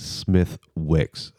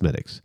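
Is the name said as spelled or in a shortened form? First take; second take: as spelled; shortened. First: The name is said as spelled, every letter sounded. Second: The name is said in a shortened, run-together form. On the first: The speaker calls it wrong. "if you looked at it, you know, it would say Smith Wicks, and that's like not the right way to say it" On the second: The speaker calls it right. "you pronounce it Smittix"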